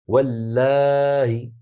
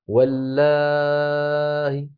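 First: The long vowel is held for a moderate length. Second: The long vowel is held for a very long time. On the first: "فنقف بهمزة مسهلة مكسورة بعد مد الألف 4 حركات" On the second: "ورش مثلهم إلا أنه يمد 6 حركات"

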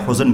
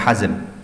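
First: The first vowel sounds like 'u'. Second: The first vowel sounds like 'a'. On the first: "Boleh dibaca Huzn" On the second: "boleh dibaca Hazn"

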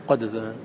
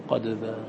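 Both takes have the same delivery.

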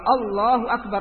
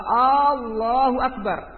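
First: The a vowels are kept short. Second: An a vowel is drawn out long. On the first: It states that God is great. The speaker calls it right. "Kalau Allahu Akbar, Allah Maha Besar" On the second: It asks whether God is great. The speaker calls it wrong. "jadi a-nya panjang, dimadkan, dipanjangkan a-nya"

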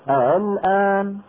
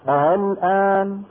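The two takes are said the same way.

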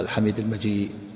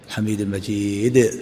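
First: The final d is stopped silently without release. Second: The final d is released with a small bounce. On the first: The speaker calls it wrong. "ما تقف الحميد المجيد وتسكت" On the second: The speaker calls it right. "قلقلها. الحميد المجيد كذا"

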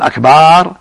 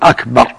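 First: The vowel after the b is drawn long. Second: The vowel after the b is short. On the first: It means drums. The speaker calls it wrong. "أما إذا قال أكبر هذا جمع كبر" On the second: It means greater. The speaker calls it right. "وأكبر لا يمد الباء، يقول أكبر يعني أعظم"

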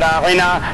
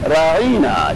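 First: The middle vowel is short and plain. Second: The middle vowel is stretched out long. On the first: A respectful request for attention. "کلمہ راغنا" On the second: An insult meaning 'our shepherd'. "اور طول دیتے اس کلمے کے ذریعے اپنی زبانوں کو کہ راغنا کو پروناؤنس کرتے ہیں"

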